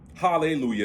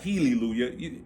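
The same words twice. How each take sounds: First: The first vowel is an open 'ah' sound. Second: The first vowel is a front 'eh' sound. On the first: It carries a high vibration. The speaker calls it right. "High vibration" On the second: It carries a low vibration. The speaker calls it wrong. "low vibration"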